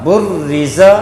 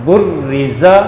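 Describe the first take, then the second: Both takes have the same delivery.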